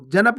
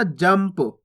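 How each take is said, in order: First: जनप split as ja-nap with a clear n; a full vowel after n in जनप; गलत उच्चारण. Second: जंप in one syllable, m straight into p; सही उच्चारण. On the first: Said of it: "जनप नहीं पढ़ना". (जनप, पूरा न बोलकर) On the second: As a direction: close the lips on m in जंप, no vowel after it. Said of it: "यानी कि इसको कैसे पढ़ेंगे". (जंप, आधा म बोलकर) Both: Shown as a demonstration.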